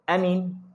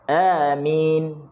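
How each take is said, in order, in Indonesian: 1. Kedua vokal dibaca pendek. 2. Kedua vokal dibaca dengan panjang yang sama. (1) "Kalau a tu pendek" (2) "Yang betul, a tu dua harakat, min tu dua harakat"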